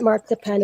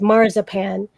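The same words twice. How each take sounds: First: It is said with a German pronunciation. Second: It is said with an English pronunciation. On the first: This is the form used in Germany. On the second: This is the form the corrector insisted on.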